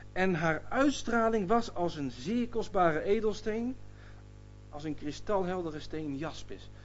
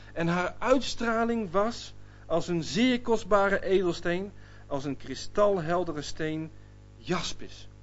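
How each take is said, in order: The two takes are said the same way.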